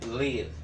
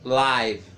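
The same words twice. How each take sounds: First: It is said with a short vowel, as in 'give'. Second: It is said like the broadcast word 'live'. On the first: It means to reside somewhere. The speaker calls it right. "pronunciamos live" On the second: It names an online broadcast. The speaker calls it wrong. "não vamos pronunciar live"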